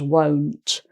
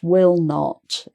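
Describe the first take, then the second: First: It is one contracted word with an O vowel. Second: It is said as two full words.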